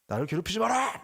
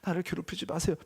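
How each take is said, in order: First: It is said roughly and aggressively. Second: It is said politely and humbly.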